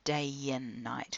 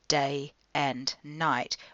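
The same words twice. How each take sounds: First: The words are joined smoothly into one unit. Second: The words are said separately, not joined. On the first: The speaker calls it right. "we actually join it together" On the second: The speaker calls it wrong. "rather than saying"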